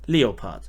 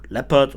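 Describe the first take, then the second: First: The word has a German pronunciation. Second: The word has a non-German pronunciation. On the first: The speaker calls it right. "it's called Leopard in German" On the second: The speaker calls it wrong. "So not Lepra or Leopard or anything like this"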